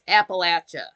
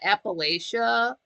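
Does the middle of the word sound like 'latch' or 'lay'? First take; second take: latch; lay. First: The middle syllable sounds like 'latch'. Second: The middle syllable sounds like 'lay'. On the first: The speaker calls it right. "Like throw an apple at you. That's the way to say it" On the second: The speaker calls it wrong. "it's not Appalachia"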